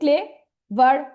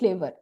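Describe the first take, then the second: First: The word is broken into two separate syllables. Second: The word is said smoothly in one go. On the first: The speaker calls it wrong. "আমি কি বলছি clay ভার" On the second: The speaker calls it right. "এক টানে উচ্চারণ হয়ে যায়"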